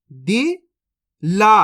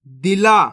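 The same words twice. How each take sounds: First: दिला stretched very slowly, each syllable held; slow teaching demo; drawn out slowly. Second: Said in the usual way. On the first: Shown as a demonstration. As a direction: sound out दिला slowly for the learner. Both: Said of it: "अब चलिए आगे देखिए".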